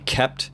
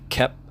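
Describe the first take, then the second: First: The word ends with a t sound. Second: The word ends without a t sound. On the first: This is the standard English form. "The standard English would be" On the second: This is the Hawaii Creole form. "in pidgin would be"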